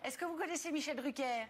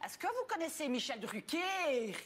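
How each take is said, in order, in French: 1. Elle est dite d'une voix normale, non nasale. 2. Elle est dite d'une voix régionale très nasale.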